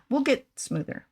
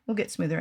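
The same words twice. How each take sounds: First: Slow, smooth, drawn out; slow smooth delivery. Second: Said in the usual way. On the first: Shown as a demonstration. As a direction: glide through it like a smooth operator.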